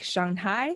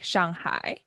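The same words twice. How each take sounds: First: The pitch goes up, English style. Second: The pitch goes down, Chinese style.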